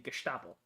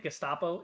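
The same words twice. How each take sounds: First: The middle consonants sound like 'sht'. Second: The middle consonants sound like a plain 'st'. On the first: The speaker calls it right. "you have to hit it with this the the, the sh" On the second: The speaker calls it wrong. "it's not the Gestapo"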